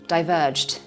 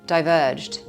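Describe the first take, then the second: First: The -ed ending blends into one final consonant. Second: The same.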